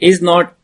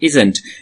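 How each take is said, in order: First: The two words are said fully and separately. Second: The words are merged into one contracted form. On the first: "like is not" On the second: "pronunciations of contraction"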